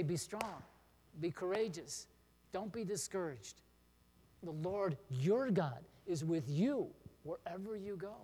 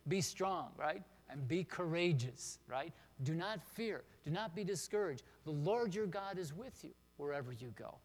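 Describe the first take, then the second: First: Spoken to someone who is struggling, pauses between phrases; gentle encouragement with a louder finish; encouraging friend. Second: Each phrase landed slow and firm, words spaced out; memory-verse delivery, every word weighed; slow emphatic recitation. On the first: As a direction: offer the verse as comfort. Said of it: "you can say". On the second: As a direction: recite it deliberately so they can memorize it. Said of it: "just listen to it at first". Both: Shown as a demonstration.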